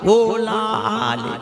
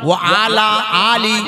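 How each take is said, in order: First: The vowels are slurred together into 'ola ale'. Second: The vowels are said clearly as 'wa ala aali'. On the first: The speaker calls it wrong. "ওলা আলে নয়" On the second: The speaker calls it right.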